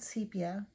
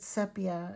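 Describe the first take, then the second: First: Sepia is said with a non-British pronunciation. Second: Sepia is said with a British-style pronunciation. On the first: This is how the speaker always says it. "I always called it sepia" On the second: This is how someone else says it. "Lily Moon pronounces it sepia"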